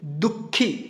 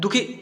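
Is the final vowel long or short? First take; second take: long; short. First: The final vowel is held long. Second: The final vowel is cut short. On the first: The speaker calls it right. "खी थोड़ा सा लंबा उच्चारण हो रहा है" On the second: The speaker calls it wrong. "ऐसे करेंगे तो समझ में नहीं आएगा"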